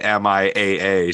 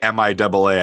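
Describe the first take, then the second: First: The two A's are read as separate letters. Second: The two A's are read as 'double A'. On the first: "I don't say M I A A" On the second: "I also say M I double A"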